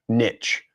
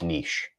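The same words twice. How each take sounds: First: It ends with a hard ch sound. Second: It ends with a soft sh sound. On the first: The speaker calls it wrong. "it would be the hard ch sound" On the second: The speaker calls it right. "it's the soft ch, so it's niche"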